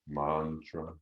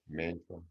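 First: The first vowel is a long A. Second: The first vowel is a short A.

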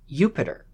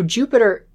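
First: The word begins with a Y sound. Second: The word begins with a J sound. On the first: The speaker calls it right. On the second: The speaker calls it wrong.

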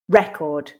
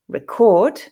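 First: The stress is on the first syllable. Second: The stress is on the second syllable. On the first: It is a noun: a stored account or disc. "but record, noun, is stressed on the first" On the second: It is a verb: to capture sound or information. "record, the verb, is stressed on the second syllable"

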